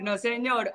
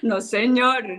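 First: Said in the usual way. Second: "No, señor" dicho más fuerte y rotundo; tajante, cortando de raíz; negación firme. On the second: Real, not acted. ("No, señor" fuerte y firme)

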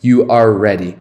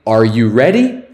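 First: "ready" falling at the end; statement form. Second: "ready" rising at the end; question form. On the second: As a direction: ask it, lifting "ready". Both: Shown as a demonstration. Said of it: "é só inverter o verbo e o sujeito".

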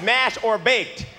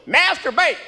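First: "mash or baked" slowly spelled out as separate words; translating a misheard "mash or baked", drawn out; clearly decoded. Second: High, slurred Southern yell; sudden high-pitched bark of an order; waiter's yell. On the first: Shown as a demonstration. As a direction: say "mash or baked" slowly, each word distinct. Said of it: "what he was saying was". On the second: Retold or imitated. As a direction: yell it like a Southern waiter, words run together. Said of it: "He just yells at me".

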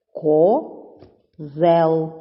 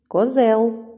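First: "Козел" drawn out as Ко, pause, зел; teacher dividing "Козел": Ко... зел; split into syllables. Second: Said in the usual way. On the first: Shown as a demonstration. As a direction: break "Козел" into two long, separate syllables. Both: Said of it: "це слово ділиться на два склади".

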